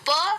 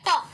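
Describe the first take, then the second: First: The p sound is said firmly, as usual. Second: The p sound is said very softly. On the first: This is how Hindi speakers say it. "हमारे लिए प normal है" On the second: This is how British speakers say it. "उनके लिए है प। उनका जो प होता है वो बहुत ज्यादा सॉफ्ट होता है।"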